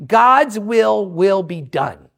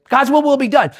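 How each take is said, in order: First: Drawn-out, lower, very slow declaration; slow, weighty motto. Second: Said in the usual way. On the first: Shown as a demonstration. Preacher stating what he says all the time, slow and weighty. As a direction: stretch each word out solemnly. Motto said slowly, then repeated.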